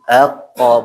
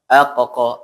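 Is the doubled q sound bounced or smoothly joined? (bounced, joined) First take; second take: joined; bounced. First: The doubled q joins smoothly without an echo. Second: The doubled q is split with a bouncing echo. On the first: The speaker calls it right. "jadi aqo" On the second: The speaker calls it wrong. "bukan aqo"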